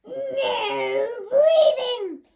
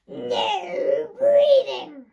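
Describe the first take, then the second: First: Slow, drawn-out loud teacher command; strict teacher. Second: Very slow, drawn-out loud shout; strict teacher shout. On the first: Teacher barking at the class, slow and loud. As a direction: bellow it like a tyrant teacher. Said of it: "stand there at the front going". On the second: Teacher roaring at the class, slow and loud. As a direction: roar it like a tyrant teacher. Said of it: "once more, from the beginning". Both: Retold or imitated.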